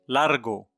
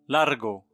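The two takes are said the same way.

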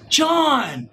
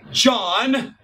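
First: The name is said with expressive, changed tone. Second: The name is said flatly, as a plain word.

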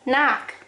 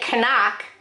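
First: The k at the start is silent. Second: The k at the start is pronounced. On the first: The speaker calls it right. "the silent letter is K. You say" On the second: The speaker calls it wrong. "You don't say knock"

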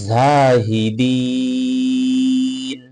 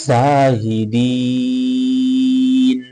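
The two takes are said the same way.

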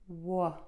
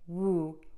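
First: The vowel after W is short and relaxed. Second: The vowel after W is long and tightly rounded. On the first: The speaker calls it right. "I move from very tense to very relaxed lips" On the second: The speaker calls it wrong. "keep their mouth too rounded and too puckered"

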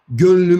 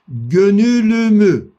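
First: The ü between n and l is dropped. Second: The ü between n and l is pronounced. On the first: "Bir müddet sonra o ü düştü, gönlümü oldu" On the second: "Gönülümü, gönülümü. Bak dikkat edin"

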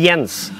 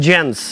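First: The name is said with a Swedish pronunciation. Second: The name is said with an American pronunciation. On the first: This is how Swedes say the name. "In Sweden we say Jens" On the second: This is how Americans say the name. "as you guys say"

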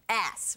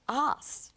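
First: It is said in an American accent. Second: It is said in a non-American accent. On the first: The speaker calls it right. "I should say it American" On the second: The speaker calls it wrong. "sounds weird when you say that with my accent"

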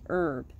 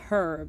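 First: The word begins with no H sound. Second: The word begins with an audible H sound. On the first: The speaker calls it right. "Even though you don't hear the H" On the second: The speaker calls it wrong. "It's not herb"

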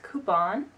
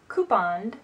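First: The word ends with an n sound. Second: The word ends with an added d sound. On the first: The speaker calls it right. "It's coupon" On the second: The speaker calls it wrong. "I've always added a D at the end"

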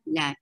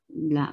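First: The vowel is held for two counts. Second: The vowel is held for four counts. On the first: "two count" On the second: "four counts long"

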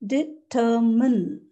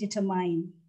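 First: The last syllable does not sound like mine. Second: The last syllable sounds like the word mine. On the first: The speaker calls it right. "The correct pronunciation is, again, three syllables" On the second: The speaker calls it wrong. "stop saying determine"

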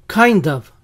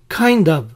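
No difference in how they are said.

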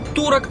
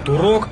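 First: The stress is on the first syllable. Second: The stress is on the second syllable. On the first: It means a Turkish person. The speaker calls it wrong. "говорить правильно нужно не «турок»" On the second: It names the game's hero. The speaker calls it right. "а «турок»"

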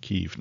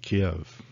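First: The name is pronounced the newer common way. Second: The name is pronounced the Russian way. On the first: This is how most people say it now. "most people call it Kiev now" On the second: This is how Russian speakers say it. "I've heard Russian people call it Kiev"

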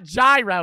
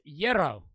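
First: The word begins with a J sound. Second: The word begins with a Y sound. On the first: The speaker calls it wrong. "It's not gyro" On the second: The speaker calls it right. "It's euro. ... I'm saying that shit right"

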